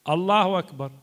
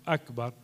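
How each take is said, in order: First: الله أكبر with the joined wa sound; الله أكبر said as one run, "allaha kbar"; wrong hamza. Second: أكبر with a clear glottal stop, "akbar"; أكبر said alone with a crisp hamza; correct hamza. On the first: Teacher shows the wrong takbir. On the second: Teacher shows the right takbir. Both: Shown as a demonstration. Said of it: "ولازم يقول هو الله أك".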